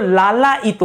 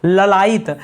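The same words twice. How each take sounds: First: लालायित with a long first aa; correct long vowel. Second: ललायित with a short first a; ललायित said as la-la-yit, short first vowel; wrong short vowel. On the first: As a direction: stretch the aa in लालायित. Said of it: "लालायित होता है". (लालायित, पहला स्वर लंबा) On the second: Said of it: "ललायित नहीं दोस्तों". (ललायित, पहला स्वर छोटा) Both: Shown as a demonstration.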